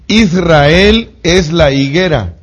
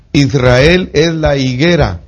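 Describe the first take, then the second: First: "Israel es la higuera" slow, high and loud; emphatic statement. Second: Said in the usual way. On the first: Shown as a demonstration. Preacher stresses "Israel es la higuera" to the congregation, emphatic. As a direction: drive the point home.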